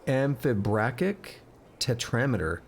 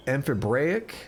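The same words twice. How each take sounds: First: Amphibrachic said carefully and slowly, am-fi-BRACK-ic; slow down and land amphibrachic with a clear k sound; corrected pronunciation. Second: Amphibraic, said without the ch sound in the middle; mispronounced amphibrachic. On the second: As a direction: stumble over amphibraic, dropping the ch. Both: Shown as a demonstration.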